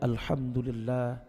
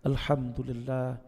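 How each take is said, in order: The two takes are said the same way.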